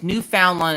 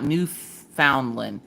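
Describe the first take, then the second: First: The name is said smoothly as one word. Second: The name is said as separate words. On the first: The speaker calls it right. "it's Newfoundland" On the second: The speaker calls it wrong. "I said the words separately instead of together"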